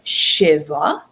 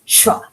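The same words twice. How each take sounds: First: "shiva" said as two syllables, shi-va. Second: "shva" squeezed into one syllable. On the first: Teacher showing the uncollapsed form, two-syllable "shiva". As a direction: give "shiva" a full vowel after the sh. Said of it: "it being a two-syllable word". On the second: Teacher showing the collapsed form, one-syllable "shva". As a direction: smush sh straight into va in "shva". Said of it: "it's a one-syllable word". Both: Shown as a demonstration.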